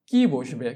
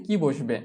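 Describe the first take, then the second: No difference in how they are said.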